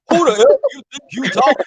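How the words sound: It is said imitating Oracle's voice.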